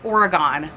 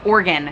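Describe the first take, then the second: First: The last syllable sounds like 'gone'. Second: The word sounds like 'organ', ending in 'gun'. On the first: The speaker calls it wrong. "I want so badly to say Oregon, like the Oregon Trail" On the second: The speaker calls it right. "everyone said it was Oregon, like your insides"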